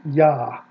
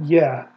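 First: Yah, with an open ah; right syllable Yah. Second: Yeh, a short e vowel after the y; wrong syllable. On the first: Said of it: "That is the first syllable". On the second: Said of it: "first syllable ... is not Yeh". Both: Shown as a demonstration.

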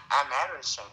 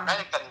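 First: "American" said as "Ameri-shun", with sh replacing the k; Amerasian, mixed-race word. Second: "American" said with a k sound before the ending; American, the nationality. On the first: Teaching the listener the word for mixed-race child, Amerasian with sh. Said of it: "American đứa con lai". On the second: Telling the listener the word for a US citizen, American with a k. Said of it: "American là người Mỹ". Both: Shown as a demonstration.

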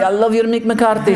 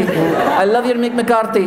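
First: Mourinho impression. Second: Mourinho impression, drawn out.

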